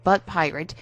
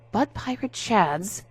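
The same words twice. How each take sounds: First: Said in the usual way. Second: Slow, BUTT leaned on with a lift; stressed butt pirate. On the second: A narrator's reading. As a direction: land on "butt" in "butt pirate", slowly. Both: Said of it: "yes, he said butt pirate".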